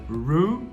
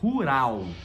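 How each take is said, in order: First: Curled R sounds, final L with tongue forward. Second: Throaty R, tapped middle R, final L like u. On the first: This is the English word. "o R vai ser sempre enrolado e o L vai ser sempre encostando a língua" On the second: This is the Portuguese word. "O L em português tem som de U"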